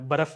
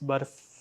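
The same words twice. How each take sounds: First: The word is said in a loose everyday way. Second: The word is said in a careful, precise way. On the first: The speaker calls it wrong. "बर्फ नहीं है" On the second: The speaker calls it right. "It's बर्फ"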